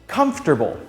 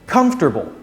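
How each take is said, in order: The two takes are said the same way.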